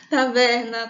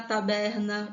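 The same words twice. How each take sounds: First: "Taverna" said with a v, louder; "Taverna" with v, not b. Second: "taberna" said with a b; "taberna" with b, not v. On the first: Teacher stating her preferred form: "Taverna" with v. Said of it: "eu prefiro taverna". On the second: Teacher giving the other variant: "taberna" with b. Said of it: "tem gente que prefere ... escrever taberna". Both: Shown as a demonstration.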